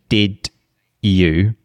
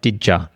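First: Both words are said fully and separately. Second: The words blend, with a reduced "ya" ending. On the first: "if you say" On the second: "that would be like"

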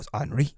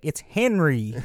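First: The name is said the French way. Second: The name is said the American way.

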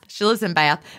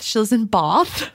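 First: Bath is said with a Georgia Southern accent. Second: Bath is said the British way, as in England.

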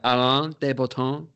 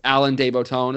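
First: The name is said with a French pronunciation. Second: The name is said with an American pronunciation. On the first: "That's how you say it in French" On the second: "if you want to say it all American"

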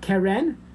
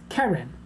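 First: The stress is on the second syllable. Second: The stress is on the first syllable. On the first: The speaker calls it wrong. "it's not Keren" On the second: The speaker calls it right. "you give emphasis on the first segel"

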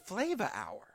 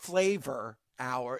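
First: The word flavor ends with an 'a' sound. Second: The word flavor ends with an 'or' sound. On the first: The speaker calls it right. "with the A on the end" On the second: The speaker calls it wrong. "It's not flavor hour"

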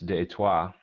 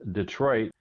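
First: The name has a French pronunciation. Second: The name has an American English pronunciation.

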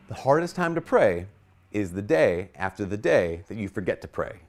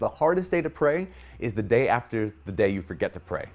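First: It is said slowly. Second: It is said fast.

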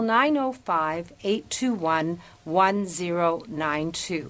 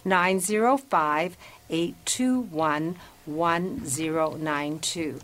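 First: The number is said at normal speed. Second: The number is said slowly.

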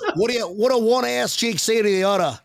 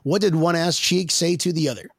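First: It is said in a put-on Australian accent. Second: It is said in the speaker's usual accent.

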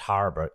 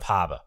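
First: It is said without a Boston accent. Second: It is said in a Boston accent.

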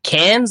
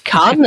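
First: It is said with an English-style pronunciation. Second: It is said with a French-style pronunciation. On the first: The speaker calls it wrong. "because I pronounce it Cannes the way I say it" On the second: The speaker calls it right. "but it's Cannes"

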